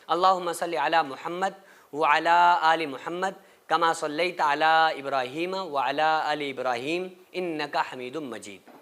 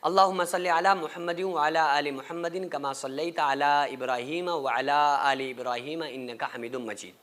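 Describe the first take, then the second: First: It is recited with pauses for breath. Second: It is recited in one breath without pausing.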